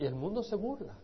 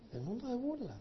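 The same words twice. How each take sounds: First: Said in the usual way. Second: Softer, higher, scornful repeat of the world's mockery; a soft, higher sneer; mocking echo. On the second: Shown as a demonstration. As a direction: let the scorn creep into it quietly.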